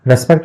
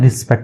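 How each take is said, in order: First: The first vowel sounds like 'eh'. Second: The first vowel sounds like 'ih'. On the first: The speaker calls it wrong. "रेस्पेक्ट नहीं बोलते हैं" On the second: The speaker calls it right. "रिस्पेक्ट बोलते हैं"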